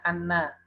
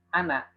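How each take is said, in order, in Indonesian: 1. Bunyi n digandakan dan ditahan. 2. Bunyi n tunggal dan pendek. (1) "jangan membaca nunnya dengan syiddah" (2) "dibacanya pendek"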